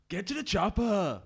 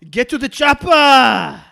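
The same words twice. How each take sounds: First: Halting Arnold Schwarzenegger impression, laughing; slow, giggly Arnie voice; clumsy practiced accent. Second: Booming, slow Schwarzenegger bark; Arnie impression. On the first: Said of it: "let me practice". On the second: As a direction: yell it slowly like a hammed-up Arnie. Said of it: "Go on then, [name]". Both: Shown as a demonstration.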